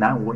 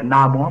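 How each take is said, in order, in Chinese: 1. 这个念 nan wu。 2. 这个念 na mo。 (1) "那不能念南无" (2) "叫那摩嘛"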